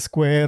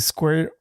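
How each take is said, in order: First: It is said with a Spanish-style pronunciation. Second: It is said with an English pronunciation. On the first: "they say square" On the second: "they don't say squirt"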